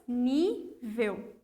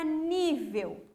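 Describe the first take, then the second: First: "nível" split into "ní... vel" with a clear gap; syllable separation. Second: Said in the usual way. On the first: Shown as a demonstration. Teacher counting two syllables for pupils, "ní, vel" said apart. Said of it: "tenho duas sílabas". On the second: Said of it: "A palavra nível".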